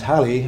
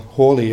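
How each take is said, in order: First: The name is said in its usual modern form. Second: The name is said in its older, original form. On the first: This is how the name is commonly said today. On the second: This is how the man himself said his name.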